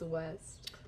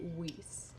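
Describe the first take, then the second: First: The vowel is a short 'e' sound. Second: The vowel is a long 'ee' sound. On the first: The speaker calls it right. "It's West" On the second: The speaker calls it wrong. "You pronounce it Weast"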